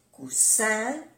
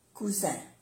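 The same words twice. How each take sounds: First: "cousin" with a hissed, unvoiced s in the middle; double S. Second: "cousin" with a voiced z in the middle; soft Z. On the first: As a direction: say "cousin" with an s sound, ending on a rise. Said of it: "es importante pronunciar bien las dos S". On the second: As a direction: say "cousin" with a buzzing z, falling at the end. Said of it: "se pronuncia como una Z suave". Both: Shown as a demonstration.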